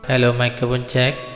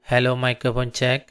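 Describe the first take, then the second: First: The voice sounds echoey with added reverb. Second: The voice sounds dry with little echo.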